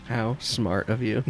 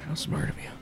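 First: Slow, wry compliment; dry praise. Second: Whispered aside. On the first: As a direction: draw it out approvingly. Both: Pretend.

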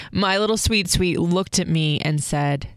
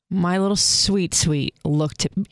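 First: Said in the usual way. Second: Real lump in the throat; choked up. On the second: Real, not acted. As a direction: voice catching with emotion. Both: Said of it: "sorry, I just got choked up".

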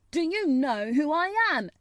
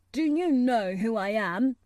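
First: High, loud, haughty demand; more imperious demand. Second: Firm, imperious question; demanding. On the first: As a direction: demand it loudly, like an offended prince. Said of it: "still more imperiously". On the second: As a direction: demand it with mild haughtiness. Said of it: "demanded the Rajah". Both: A narrator's reading.

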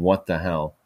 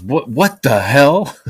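First: Said in the usual way. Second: Loud, high, slow startled yell; a dad storming out shouting, slowed right down; angry neighbor dad. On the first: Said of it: "comes out in his underwear saying". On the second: Retold or imitated. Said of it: "he goes".

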